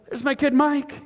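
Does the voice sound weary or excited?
excited. It is said with excited energy.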